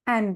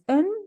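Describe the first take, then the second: First: The word is said with a full vowel. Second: The word is said with a reduced vowel.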